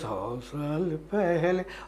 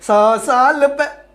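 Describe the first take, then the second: First: It is said softly at a low volume. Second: It is said loudly, with the pitch shifting. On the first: "कम volume में हम कह रहे हैं" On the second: "ज़्यादा volume उसका pitch बदल"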